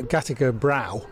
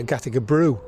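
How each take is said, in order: First: Said in the usual way. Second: Brew with an "oo" vowel, Lancashire style; "Brew" rhyming with "through"; Lancashire pronunciation. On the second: Shown as a demonstration. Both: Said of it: "Something we pronounced with a Lancashire accent".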